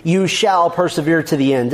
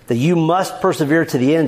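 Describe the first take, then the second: First: "shall" leaned on firmly, the rest falling away; You "shall" persevere, with the weight on "shall"; stress on SHALL. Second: Said in the usual way. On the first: Shown as a demonstration. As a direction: hit the word "shall" as a promise. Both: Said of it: "Listen to the emphasis on this truth".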